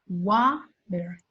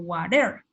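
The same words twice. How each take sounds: First: The stress is on the first syllable. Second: The stress is on the second syllable. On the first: The speaker calls it right. "el estrés va a ir en la primera sílaba" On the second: The speaker calls it wrong. "no es water o water"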